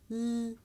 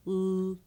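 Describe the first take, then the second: First: L held as a light, clear sound; light L, as at the start of "leaf"; syllable-initial L. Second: L held as a dark "ul" sound; dark l, as at the end of "feel"; syllable-final L. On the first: Teacher contrasting the two L sounds, syllable-initial L. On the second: Teacher contrasting the two L sounds, syllable-final L. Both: Shown as a demonstration. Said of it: "Did you hear that little difference".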